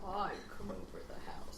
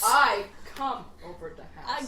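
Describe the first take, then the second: First: Breathy mock-sexy whisper. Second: Voiced, cracking up mid-line; laughing sexy voice. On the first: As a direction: whisper it seductively. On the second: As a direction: say it while laughing. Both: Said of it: "What's your sexy voice then?".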